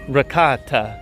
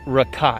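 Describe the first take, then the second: First: The final vowel is pronounced. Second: The final vowel is silent. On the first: "it's not ricotta" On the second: "it is ricot"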